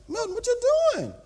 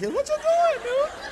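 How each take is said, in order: First: High, quick worried question; voice getting high. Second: Comic falsetto squeal, louder; squeaky high voice. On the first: Winded pastor asking his trainer what he's doing, voice rising high. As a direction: voice starting to climb in alarm. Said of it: "My voice starts getting high". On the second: Pastor panicking at his trainer's speed, squealing very high. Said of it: "My voice starts getting high like". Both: Acted.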